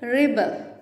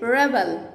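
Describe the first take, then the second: First: The first syllable sounds like 'rib'. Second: The first syllable sounds like 'reb'. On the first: The word is used as a verb. "నా వర్బ్గా use చేయాలనుకోండి" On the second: The word is used as a noun. "It's noun"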